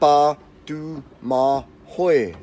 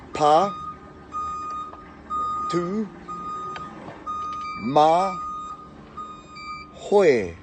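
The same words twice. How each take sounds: First: The name is said at a quicker pace. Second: The name is said slowly, syllable by syllable. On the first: "we'll just say it a bit faster" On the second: "so we'll go through that again"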